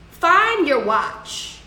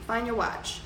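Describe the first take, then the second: First: "find your watch" slow and higher, every word pressed; emphatic advice. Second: "Find your watch" softer, a quiet final reminder; soft closing advice. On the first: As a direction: hammer home "find your watch" as the lesson. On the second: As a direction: leave them with "Find your watch" gently. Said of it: "that's my advice for you". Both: Shown as a demonstration.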